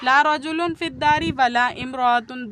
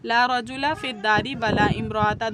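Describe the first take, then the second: First: Both nouns end in -un. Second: Both nouns end in a short -a. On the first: "दोनों पर तनवीन के साथ रफ़ा है" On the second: "दोनों पर नसब, ... सिंगल नसब"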